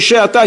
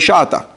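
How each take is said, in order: First: The first vowel is an e sound. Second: The first vowel is an a sound. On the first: "Sfarim have no problem. You say she'ata, you're right" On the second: The kamatz is read as a patach. "if you're reading a kamatz as a patach, you say shata"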